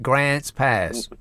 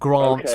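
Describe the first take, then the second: First: It is said in a put-on American accent. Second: It is said in an English accent. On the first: The speaker calls it right. "but Grants Pass" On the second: The speaker calls it wrong. "not Grants Pass"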